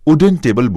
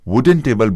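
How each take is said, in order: First: It begins with a plain oo vowel sound. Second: It begins with a w consonant sound. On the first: The speaker calls it wrong. "स्वर अक्षर से प्रारंभ यानी ऊ से" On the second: The speaker calls it right. "व्यंजन से प्रारंभ"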